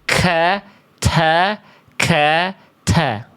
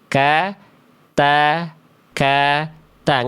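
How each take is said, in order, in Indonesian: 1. Konsonannya punya hembusan napas yang kuat dan berlebihan. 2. Konsonannya punya hembusan napas yang ringan dan wajar. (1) "Nggak sampai" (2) "biasa aja"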